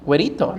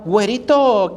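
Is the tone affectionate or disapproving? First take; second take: disapproving; affectionate. First: It is said in a cold, dismissive tone. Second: It is said in a warm, fond tone. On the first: The person is disliked and blamed. "güerito is bad" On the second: The person is liked and praised. "as a good thing"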